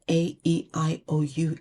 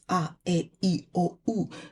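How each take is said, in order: First: The vowel letters are named as in English. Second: The vowel letters are named as in Swahili. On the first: The speaker calls it wrong. "alphabet is not" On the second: The speaker calls it right. "in Swahili, it's"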